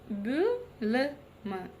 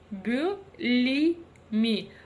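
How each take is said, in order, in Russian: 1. Гласные краткие, между «ы» и «и». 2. Гласные очень мягкие, как русское «и». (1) "ровно та самая мягкость, которая нам необходима" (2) "Если мы прочитаем через букву «и»"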